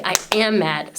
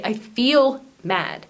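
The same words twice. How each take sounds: First: Said in the usual way. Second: "feel" leaned on, whole phrase said slowly; slow down and land firmly on "feel"; stress on feel. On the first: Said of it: "Don't just say". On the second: Shown as a demonstration. Teacher showing viewers the right phrasing, slow with stress on "feel".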